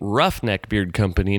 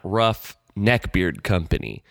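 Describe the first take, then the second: First: Rough and neck are grouped, beard stands apart. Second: Neck and beard are grouped, rough stands apart. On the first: The name refers to roughnecks, not neck beards. The speaker calls it right. "It should be" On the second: The name implies products for people with neck beards. The speaker calls it wrong. "that's sort of the incorrect emphasis"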